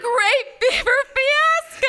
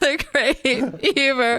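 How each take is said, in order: First: It is said with excited enthusiasm. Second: It is said in a sad tone.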